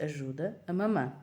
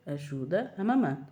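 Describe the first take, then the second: First: Said in the usual way. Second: Slow and stern, eyes wide; mother repeating a firm order to her toddler; stern, slow command. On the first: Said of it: "eu disse". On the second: Retold or imitated. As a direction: lay down the law slowly. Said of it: "Abri-lhe assim os olhos mesmo".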